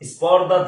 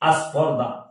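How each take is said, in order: First: The word starts directly with the s sound. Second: An a vowel comes before the s. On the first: "স্পর্ধা থেকে" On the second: "আ যুক্ত হয়েছে"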